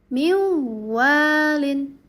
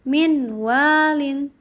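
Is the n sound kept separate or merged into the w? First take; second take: merged; separate. First: The n merges into a nasalized w. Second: The n is pronounced separately before the w. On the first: "maka dibacanya menjadi miwalin" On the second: "di sini ada contohnya min walin"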